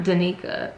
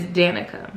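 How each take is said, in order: First: Danica said duh-NEE-kuh; wrong pronunciation of Danica. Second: Danica said DAN-ih-kuh; correct pronunciation of Danica. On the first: Reader admitting her mistake, Danica said duh-NEE-kuh. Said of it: "her name is not Danica". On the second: Reader correcting herself after a friend's tip, Danica said DAN-ih-kuh. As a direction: stress the first syllable of Danica, as DAN-ih-kuh. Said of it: "it is Danica". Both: Shown as a demonstration.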